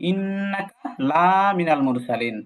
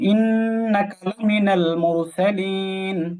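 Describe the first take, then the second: First: The vowel of 'la' is drawn out long. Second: The vowel of 'la' is kept short. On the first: The messenger is not among the messengers. The speaker calls it wrong. "যদি আমরা এই লাতে টান দিই" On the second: The messenger is surely among the messengers. The speaker calls it right. "লা বলা যাবে না"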